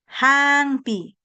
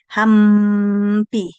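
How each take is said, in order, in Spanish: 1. Los labios se mantienen separados en el sonido nasal. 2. Los labios se cierran por completo en el sonido nasal. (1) "Y se queda abierto tu boca, no cierras para nada" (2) "tus labios tienen que tocarse cuando pronuncias la M"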